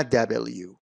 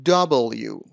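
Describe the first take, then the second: First: "دبلیو" with a short front first vowel, da-bel-you; wrong pronunciation. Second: "دبلیو" with a rounded first vowel, dah-bol-you; correct pronunciation. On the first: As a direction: say دبلیو as DA-bel-yoo, middle vowel unrounded. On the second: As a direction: say دبلیو as three clear parts, DAH-bol-yoo. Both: Shown as a demonstration. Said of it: "نه دبلیو".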